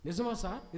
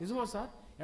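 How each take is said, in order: First: High, eager plea; eager hopeful plea; eager question. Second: Higher, more pleading echo; hopeful repeated plea; eager question repeated. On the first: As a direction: grab at the hope. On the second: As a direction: press him again, hopeful. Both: Acted. Family eager for a cure.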